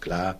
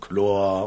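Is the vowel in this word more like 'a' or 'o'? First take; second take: a; o. First: The vowel is a clear open a sound. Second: The vowel is darkened toward an o sound. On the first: This is the standard German form. "Also für Ja und es ist klar" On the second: This is the Westphalian dialect form. "der verdumpft worden ist. So ein Wort Jor und Chlor"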